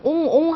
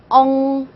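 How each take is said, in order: First: The vowel is a fully rounded 'o'. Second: The vowel is a between sound like 'eo'. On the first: The speaker calls it wrong. "옹도 그냥 옹옹 하시면 안 되고요" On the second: The speaker calls it right. "이것도 아닌 저것도 아닌 발음해서 엉"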